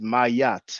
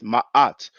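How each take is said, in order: First: A Y sound joins the two a vowels. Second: A glottal catch separates the two a vowels. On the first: The speaker calls it wrong. "do not pronounce it mayat. There is no Y" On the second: The speaker calls it right. "we have those two ah sounds. That's why I usually pronounce it ma'at"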